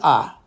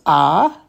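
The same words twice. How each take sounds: First: The vowel is short and quick. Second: The vowel is held longer. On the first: This is the reduced chatef patach vowel. "the chatef patach is ah. So it's just a little bit quicker" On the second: This is the full patach vowel. "the patach by itself is pronounced ah"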